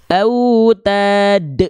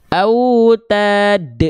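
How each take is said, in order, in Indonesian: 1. Pantulan terakhir ditahan lalu dipotong tiba-tiba. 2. Pantulan terakhir ditahan lalu dipotong tiba-tiba.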